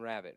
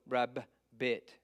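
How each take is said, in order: First: The word is said quickly as one unit. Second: The word is split into two separate syllables. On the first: The speaker calls it right. "we say it so quickly" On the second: The speaker calls it wrong. "We don't go rab bit"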